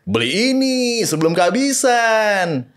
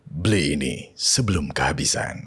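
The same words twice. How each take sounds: First: It is said in a sporty, casual voice. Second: It is said in an elegant, luxurious voice. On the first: It advertises sporty shoes. "Terus sepatu" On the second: It advertises a product in luxury packaging. "Terus kalau yang tadi"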